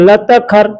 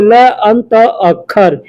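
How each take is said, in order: First: The words are run together into one. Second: The words are said separately, one by one.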